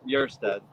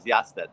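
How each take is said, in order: First: The surname is said with an American pronunciation. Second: The surname is said with a Swedish pronunciation. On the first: "The American version is" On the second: "Swedish version is"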